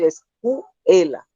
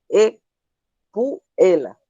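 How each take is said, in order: First: The s sound before the c is pronounced. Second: The s sound before the c is dropped. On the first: This is the word as it should be said. The speaker calls it right. "en vez de decir escuela" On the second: This is how a child with speech difficulties says it. The speaker calls it wrong. "dice ecuela"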